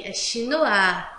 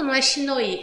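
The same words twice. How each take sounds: First: Chinois said as "shee-NWAH", oi sounding like wa, final s silent; correct French pronunciation. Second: Chinois said with the oi as "oi", shee-NOY; wrong pronunciation. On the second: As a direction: read chinois letter by letter as "shinoy". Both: Shown as a demonstration. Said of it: "O com I em francês tem som de A".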